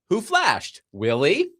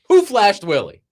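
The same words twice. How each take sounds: First: There is a pause after flashed. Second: It runs on without any pause.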